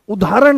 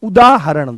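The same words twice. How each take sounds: First: उदाहरण said the wrong way, without the breathy ह; उदाहरण said wrongly; wrong pronunciation. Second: उदाहरण said clearly with the ह; उदाहरण said correctly; correct pronunciation. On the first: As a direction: mispronounce उदाहरण on purpose. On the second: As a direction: say उदाहरण properly, every syllable. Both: Shown as a demonstration. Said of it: "उदाहरण नहीं".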